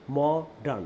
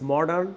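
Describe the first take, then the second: First: Modern split into mo-dern; teacher breaking modern in two; syllable by syllable. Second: Said in the usual way. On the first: Shown as a demonstration. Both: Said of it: "দেখেন, দুইটা syllable".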